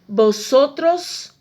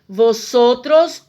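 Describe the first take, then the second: First: The word begins with a B sound. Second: The word begins with a V sound. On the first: The speaker calls it right. "o V tem sempre som de B" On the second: The speaker calls it wrong. "eu não vou dizer vosotros"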